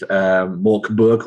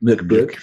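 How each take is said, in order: First: The first vowel sounds like 'more'. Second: The first vowel sounds like 'murk'. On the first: The speaker calls it wrong. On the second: The speaker calls it right.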